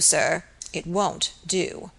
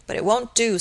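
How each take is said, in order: First: Slow, final warning. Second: Said in the usual way. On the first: A narrator's reading. Surgeon silently rebuking the young man, slow and final. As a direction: linger on each word of "it won't do" like a closing verdict.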